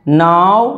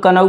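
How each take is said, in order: First: नाउ with silent k, said clearly; correct pronunciation nau. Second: कनऊ said the wrong way with the k sounded; wrong pronunciation kanau. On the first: Teacher models the right way, नाउ with silent k. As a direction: say नाउ, just nau, no k sound. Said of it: "नाउ बोलोगे". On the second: Teacher shows the beginners' mistake, कनऊ with k. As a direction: sound out कनऊ as ka-nau, k not silent. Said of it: "कुछ लोग कनऊ बोलेंगे". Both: Shown as a demonstration.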